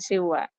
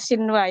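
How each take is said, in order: First: The n sound before the w is dropped. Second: The n sound before the w is pronounced clearly. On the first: The speaker calls it wrong. "bukan siwa" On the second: The speaker calls it right. "Itu dibacanya sinwa ya"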